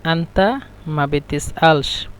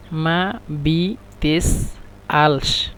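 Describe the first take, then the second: First: Said slowly and evenly for learners; slow teaching demo of an Arabic phrase; slow model phrase. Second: Very slow, split into syllables; মা বি তেস আলস spelled out in separate slow syllables. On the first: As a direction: model the Egyptian phrase at a slow, clear pace. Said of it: "আঞ্চলিক ভাষা হলো". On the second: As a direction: break it apart syllable by syllable for learners. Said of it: "একসাথে আমরা বলি". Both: Shown as a demonstration.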